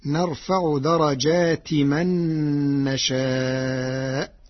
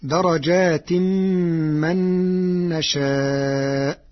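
First: درجات ending in a bare short i; without tanween. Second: درجات ending in tanween, merged into a held m; slow, hum from درجات into من; reading with tanween. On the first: Teacher shows Warsh's reading, no tanween on درجات. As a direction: go straight from درجات to من with no added nasal. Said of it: "بدون تنوين، فتصير". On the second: Teacher cites the verse before changing it, tanween on درجات. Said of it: "بدون تنوين". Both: Shown as a demonstration.

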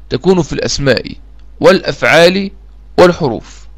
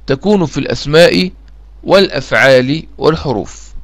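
Both takes have the same delivery.

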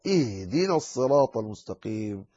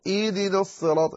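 First: إهدنا with the ha clearly breathed; correct ha. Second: إهدنا quick with the ha lost; wrong, ha dropped. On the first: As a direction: sound the ha of إهدنا. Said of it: "لا". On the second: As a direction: rush إهدنا as إدنا. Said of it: "لا تقل". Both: Shown as a demonstration.

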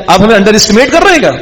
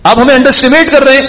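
First: Higher, fast mock-offended question; brothers' offended tone. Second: Much higher, whiny mock offence; brothers' offended tone. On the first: Brothers asking their father if he underestimates them, mock-offended. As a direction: rattle off the mock hurt as a wounded son. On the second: Brothers repeating to their father that he underestimates them, high and whiny. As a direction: push the complaint up high like a sulking son. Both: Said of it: "یہ بھی tone ہے ہمارے یہاں کی".

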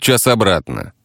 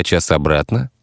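First: «час обратно» as a statement falling at the end. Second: «час обратно» rising at the end; questioning echo. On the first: Taxi driver lists travel time, «час обратно» falling. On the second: Listener queries the travel time, «час обратно» rising. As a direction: ask «час обратно» back with a final rise. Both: Acted.

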